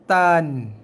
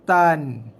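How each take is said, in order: First: The vowel is cut short, one beat. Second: The vowel is cut short, one beat.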